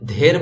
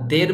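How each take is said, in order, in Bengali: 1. প্রথম ব্যঞ্জনটি শ্বাসযুক্ত, অ্যাসপিরেটেড। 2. প্রথম ব্যঞ্জনটি সাধারণ, অ-অ্যাসপিরেটেড। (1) "ধের বলতে হবে" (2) "দের বললে হবে না"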